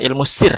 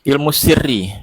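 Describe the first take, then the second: First: The word ends on the consonant, vowel dropped. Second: The word ends with a final i vowel.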